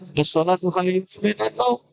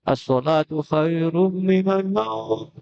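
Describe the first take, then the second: First: The same vowel is not held for two beats. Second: A vowel is stretched to about two beats. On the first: The speaker calls it wrong. "Jangan ... itu salah" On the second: The speaker calls it right. "Agak banyak sedikit. ... Dua, dua ketukan"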